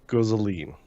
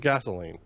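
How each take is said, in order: First: The word is said like 'guzzoline'. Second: The word is said like 'gasoline'. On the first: This is how the actor in the film says it. "he pronounces it guzzling" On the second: This is the usual way to say it. "not gasoline"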